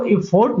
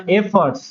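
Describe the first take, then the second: First: "एफर्ट" said as "i-FORT", with I and O vowels; mispronounced effort. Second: Said in the usual way. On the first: Shown as a demonstration. Teacher warning learners off it, "एफर्ट" mispronounced as "i-fort". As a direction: say "एफर्ट" wrongly, opening on a short I. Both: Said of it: "इसको एफर्ट नहीं बोलना".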